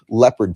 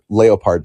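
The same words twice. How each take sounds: First: Leopard is pronounced the usual English way. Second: Leopard is pronounced the German way.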